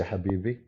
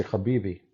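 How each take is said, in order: First: "Habibi" with a light breathy h, no throat rasp; soft h Habibi. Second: "Habibi" with a rasping throat kh, as in Arabic; guttural Habibi. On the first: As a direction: say "Habibi" with an easy English h. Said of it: "He don't say". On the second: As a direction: say "Habibi" with a scraped throat sound at the start. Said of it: "Like he say". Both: Retold or imitated.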